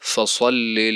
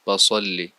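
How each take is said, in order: First: It starts with f from the inner lip. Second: It starts with a p sound. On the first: The speaker calls it right. "फ़सल्लि लिरब्बिक वन्हर" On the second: The speaker calls it wrong. "या पे से पढ़ें"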